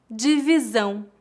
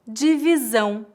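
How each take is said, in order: Both takes have the same delivery.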